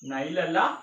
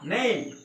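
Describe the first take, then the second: First: The vowel sounds like 'eye'. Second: The vowel sounds like 'ay'. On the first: The speaker calls it wrong. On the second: The speaker calls it right.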